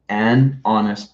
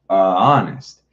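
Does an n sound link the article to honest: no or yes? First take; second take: yes; no. First: An n sound links the article to honest. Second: A bare vowel runs into honest with no n. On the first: The speaker calls it right. "That is why we say an" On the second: The speaker calls it wrong. "it doesn't sound clear"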